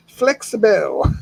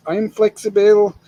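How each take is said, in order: First: Flexible stretched slow, each syllable drawn out. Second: Said in the usual way. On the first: Shown as a demonstration. Repeating his own word for the stream, slow and drawn out. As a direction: savor the word Flexible, slowly.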